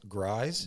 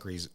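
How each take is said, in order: First: The vowel sounds like the one in cries. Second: The vowel sounds like the one in peace. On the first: The speaker calls it right. "Think of how we spell cries. So substitute the C with the G" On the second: The speaker calls it wrong. "I'm sorry, not Grease"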